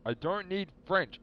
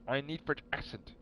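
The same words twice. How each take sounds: First: Drawn-out exasperated protest, high and loud; frustrated emphasis. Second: "French accent" given a firmer, weight-ending fall; stress on accent. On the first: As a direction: whine "I don't need French" slowly, pitched up and loud. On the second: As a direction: lean on "French accent" as the thing needed. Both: Real, not acted.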